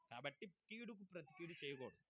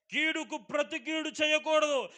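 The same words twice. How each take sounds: First: Quiet restatement. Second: Loud high proclamation of the rule; proclaimed. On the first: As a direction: settle it gently for them. Quiet repeat of the rule. (కీడుకు ప్రతి కీడు చేయకూడదు అని మెల్లగా మళ్ళీ చెప్పడం) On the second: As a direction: declare it to the whole church. Proclaimed then repeated softly. (కీడుకు ప్రతి కీడు చేయకూడదు అని గట్టిగా ప్రకటించడం) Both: Acted.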